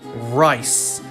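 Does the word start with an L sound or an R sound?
R sound. The word starts with an R sound.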